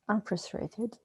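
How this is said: The stress is on frustrated.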